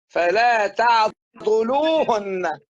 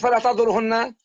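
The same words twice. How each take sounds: First: The W sound is clearly and distinctly pronounced. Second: The W sound is blurred and not clearly pronounced. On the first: The speaker calls it right. "بدك توضح هون الواو" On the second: The speaker calls it wrong. "ما ت- تقول فلا تعضلوهن"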